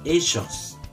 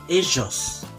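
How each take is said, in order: No difference in how they are said.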